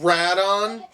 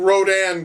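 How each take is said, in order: First: The name begins with 'ray' and ends 'don'. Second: The name begins with 'row' and ends 'dan'. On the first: The speaker calls it wrong. "Did they just call him Radon?" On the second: The speaker calls it right. "That is fucking Rodan"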